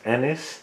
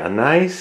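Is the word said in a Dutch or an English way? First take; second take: English; Dutch. First: The word is said the English way. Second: The word is said the Dutch way. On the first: "you pronounce it in English as anise" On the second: "We say anise in the Netherlands"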